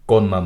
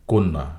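First: কন্যা said "kawnna", with open aw; mistaken open vowel. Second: কন্যা said "konna", with a rounded o; correct o-like vowel. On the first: Teacher showing the error to avoid, "kawnna". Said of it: "কন্যা নয়". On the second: Teacher correcting the error for learners, "konna". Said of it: "শব্দটির উচ্চারণ হবে". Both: Shown as a demonstration.

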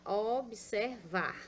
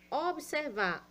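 First: Observar slowed to o-bi-ser-var; slow syllable-split observar. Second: Said in the usual way. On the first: Shown as a demonstration. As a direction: stretch observar out, sounding each syllable.

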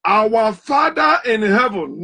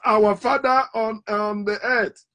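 First: Heaven drawn out slowly; slow recitation stressing "heaven". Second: "earth" trailing softer, slow; slow mock take, "on the earth" fading softer; contrasting wrong take; stress on earth. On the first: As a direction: lean on "heaven", slow and deliberate. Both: Shown as a demonstration.

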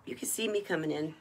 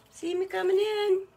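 First: Said in the usual way. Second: The line again but much higher, sing-song; playful high repeat. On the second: Acted. Host showing off the bracelet to viewers, high sing-song. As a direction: toss it up high like a proud little tune.

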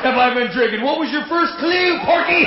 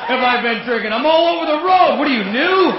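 First: High mocking drunk shout; silly clown. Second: Put-on louder high drunk taunt; silly clown. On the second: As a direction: sneer it at the cop, shouting. Drunk mocking the cop again.

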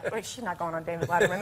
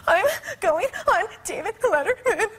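First: Low, quick, muted aside; skeptical seatmate. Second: High, gasping wail, hammed up; mock breathless sobbing. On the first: Retold or imitated. Seatmate doubts the sobbing girl's claim, low and quick. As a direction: drop the voice and dismiss it fast. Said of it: "and he's like". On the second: Sobbing passenger answers her seatmate, in mock breathless wails. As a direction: blubber it out between exaggerated gasps. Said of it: "'Cause I can't breathe".

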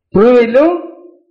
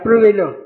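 First: "Pruébelo" drawn out slowly, a bit louder; urged once more. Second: Said in the usual way. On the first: Retold or imitated. Retelling the kiosk lady's advice, "Pruébelo" slow and insistent. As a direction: stretch "Pruébelo" to press the point. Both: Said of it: "¿Sabe lo que me dijo?".

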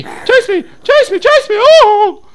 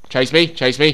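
First: Very high, panicky shrieked taunt; squealed taunt. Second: Said in the usual way. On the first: Real, not acted. Player luring a zombie after him, squealing. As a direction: shoot up into a loud falsetto squeal.

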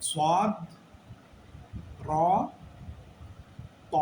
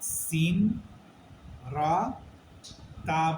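First: "সদ, র, ত" full-mouthed with rounded o vowels; thick, rounded "র" and "ত", spaced apart; correct heavy letters. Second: "সিন, রা, তা" spaced out, thin and unrounded; wrong light letters. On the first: Teacher giving the correction, "সদ, র, ত" said heavy and rounded. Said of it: "আমাদের বলতে হবে". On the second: Teacher repeating the mistake, "সিন, রা, তা" in light sounds. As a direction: open front aa in "রা" and "তা". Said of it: "বলার সুযোগ নাই". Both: Shown as a demonstration.

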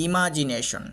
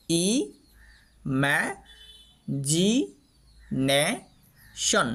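First: Said in the usual way. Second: "ই ম্যা জি নে শন" broken into separate syllables with long pauses. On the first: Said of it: "আমরা এটাকে উচ্চারণ করা". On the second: Shown as a demonstration. Teacher splits the word for learners, syllable by syllable. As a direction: say ই, ম্যা, জি, নে, শন one at a time. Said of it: "সিলেবলের মধ্যে পাট পাট পাট পাট করে".

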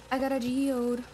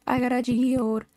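First: Said in the usual way. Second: Louder, drawn-out demanding call; insistent shout. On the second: Pretend. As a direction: call it out slowly and loudly to get let in. Repeats it, demanding to be let in.

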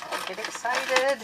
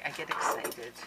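First: Higher, put-on excited repeat. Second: Said in the usual way. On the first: Shown as a demonstration. Vlogger mocking herself to viewers, higher, put-on. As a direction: echo her own words in a squeaky voice.

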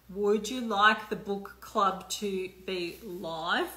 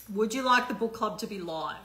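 First: Slow, drawn out, rising at the end; slow repeated question. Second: Said in the usual way. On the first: Shown as a demonstration. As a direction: stretch the question out and lift the last word.

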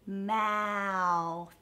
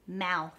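First: "Mouth" with a long gliding vowel; slowed down. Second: Said in the usual way. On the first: Shown as a demonstration. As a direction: stretch "Mouth" out slowly for a learner. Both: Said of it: "practice slowing it down".

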